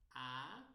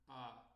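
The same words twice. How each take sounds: First: A louder with the mouth open, rising. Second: A short, lower, mouth more closed. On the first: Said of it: "Só de eu abrir mais a boca". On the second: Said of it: "boca um pouco mais fechadas". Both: Shown as a demonstration.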